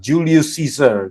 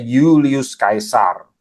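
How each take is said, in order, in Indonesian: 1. Caesar diawali dengan bunyi S, seperti seezer. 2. Caesar diawali dengan bunyi K, seperti kaisar. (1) "Itu cara baca Inggris ya" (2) "saya baca dengan cara orang Romawi ya. Mereka bacanya"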